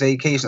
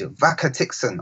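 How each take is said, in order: First: The name sounds like the word vacation. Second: The name sounds like Vaka Tixon. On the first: This is how the owner says the name. The speaker calls it right. "don't you know it's Vacation?" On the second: Someone else got the name wrong. The speaker calls it wrong. "they mispronounce my name"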